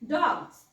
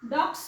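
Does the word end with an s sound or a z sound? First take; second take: z; s. First: The word ends with a z sound. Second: The word ends with an s sound. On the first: The speaker calls it right. "इथे ज उच्चार झाला यसचा" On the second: The speaker calls it wrong. "डॉग्स म्हणत नाही आपण"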